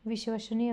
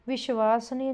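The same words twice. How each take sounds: First: Said in the usual way. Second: विश्वसनीय said as "vishvaasniya"; wrong long vowel. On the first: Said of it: "विश्वसनीय होता है". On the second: Shown as a demonstration. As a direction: stretch a long "aa" after the v in विश्वसनीय. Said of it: "विश्वसनीय नहीं होता". (विश्वसनीय में "वा" को लंबा खींचकर)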